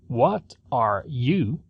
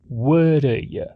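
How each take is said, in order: First: Each word is said separately and fully. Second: The words are reduced and run together. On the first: "não fala What are you separadamente" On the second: "Essas três palavras são reduzidas e unidas"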